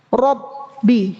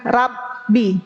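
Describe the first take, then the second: First: The vowel after r is full and heavy. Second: The vowel after r is thin and light. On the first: The speaker calls it right. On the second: The speaker calls it wrong.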